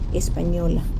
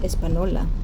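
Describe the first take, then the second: First: The middle consonant is an 'ny' sound. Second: The middle consonant is a plain 'n' sound. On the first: This is the Spanish way of saying it. The speaker calls it right. "really in Spanish pronounced Española" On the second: This is the English way of saying it. The speaker calls it wrong. "in English is mispronounced Espanola"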